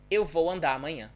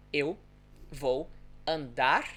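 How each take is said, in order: First: Quick and run together, the R of "andar" dropped into "amanhã"; fast connected speech. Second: Slow pronunciation. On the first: Teacher showing learners how the sound disappears, fast connected speech. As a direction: link "Eu vou andar amanhã" fast, no vibrating R. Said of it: "if I pronounce it fast". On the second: Teacher showing learners the vibrating sound, slow pronunciation. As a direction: spell out "Eu vou andar" slowly, pausing between words. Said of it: "if I pronounce it slowly". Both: Shown as a demonstration.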